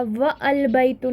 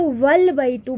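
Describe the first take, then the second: First: "व अलबैतु" split, the "a" of अल sounded; unlinked wrong reading. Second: "वलबैतु" as one word, wa running straight into l; linked reading. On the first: Teacher showing how it is not read, hamza voiced. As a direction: separate व from अलबैतु with a fresh vowel. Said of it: "नहीं पढ़ा जाएगा". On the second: Teacher showing wa attached to al-baytu, linked. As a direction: join व to the lam in वलबैतु, alif silent. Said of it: "तो वलबैतु बन जाएगा". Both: Shown as a demonstration.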